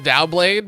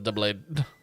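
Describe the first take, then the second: First: The first syllable sounds like 'dow'. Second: The first syllable sounds like 'duh'. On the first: "I've always pronounced it Dowblade" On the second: "I think you would actually pronounce it as Dubblade"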